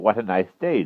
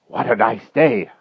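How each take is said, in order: First: It is said in a plain, ordinary tone. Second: It is said breathlessly, as if frightened.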